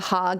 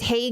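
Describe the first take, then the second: First: The name is said with Dutch pronunciation. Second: The name is said with English pronunciation. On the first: "but Haag in Dutch" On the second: "It's Hague in English"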